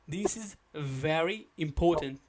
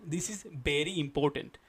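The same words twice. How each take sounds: First: Very starts with lower lip against upper teeth. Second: Very starts with both lips touching, B-like. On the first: The speaker calls it right. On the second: The speaker calls it wrong.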